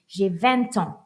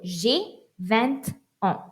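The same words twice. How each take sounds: First: Vingt and ans are joined without any pause. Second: Vingt and ans are separated by a small pause.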